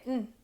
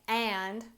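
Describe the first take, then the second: First: The word is reduced to a short nasal sound. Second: The word is said in full with its vowel. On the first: The speaker calls it right. "we say mm" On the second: The speaker calls it wrong. "instead of saying and"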